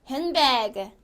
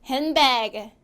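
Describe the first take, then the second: Both takes have the same delivery.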